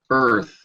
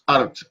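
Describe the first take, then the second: First: The word ends with a th sound. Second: The word ends with a t sound. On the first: The speaker calls it right. "make sure you get that th sound" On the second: The speaker calls it wrong. "pronounced it almost like art. This art of yours"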